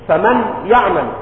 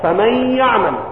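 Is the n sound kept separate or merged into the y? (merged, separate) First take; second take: separate; merged. First: The n is pronounced clearly before the y. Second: The n merges into the y with nasalization. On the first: The speaker calls it wrong. "ولا تقل فمن يعمل" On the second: The speaker calls it right. "إدغام بغنة، إدغام النون الساكنة بالياء"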